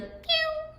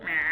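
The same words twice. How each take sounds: First: Very high, soft kitten meow; cute meow. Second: Rough, low cat meow; a sick cat's croaky meow; raspy meow. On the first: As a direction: mew like a tiny kitten. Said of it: "a cute meow can be like". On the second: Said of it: "a raspy meow will be like". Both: Shown as a demonstration.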